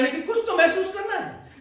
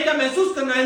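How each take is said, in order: First: कुछ lifted higher, with a soft laugh through it; stress on कुछ with a little laugh. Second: Said in the usual way. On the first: Shown as a demonstration. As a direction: lean on कुछ, half laughing. (कुछ पर ज़ोर, हल्की हँसी के साथ)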